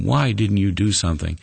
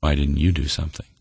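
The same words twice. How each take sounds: First: Mildly raised, challenging question; indignant challenge. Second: Subdued, quicker question turned back; sobering question. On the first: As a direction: put it to God as a complaint. Turtle's planned complaint to God. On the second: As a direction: let the question land soberly, understated. God's question turned back on turtle. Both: Acted.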